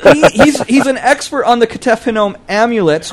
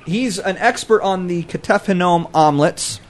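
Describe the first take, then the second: First: Higher, "amulets" corrected to AM-yoo-lets through laughter; amused self-correction. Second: "omelets" in place of amulets, starting AHM; mispronounced word. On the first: Scholar correcting his slip to co-hosts, laughing on "amulets". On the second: Scholar describing silver artifacts, "omelets" slipped in for amulets. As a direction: slip into "omelets", like the egg dish. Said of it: "You mean amulets?". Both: Real, not acted.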